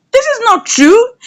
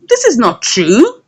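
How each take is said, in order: First: Rising disbelief. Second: Said in the usual way. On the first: Retold or imitated. Kelly's friend protesting his confession, pitched high. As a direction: repeat it higher and rising in disbelief.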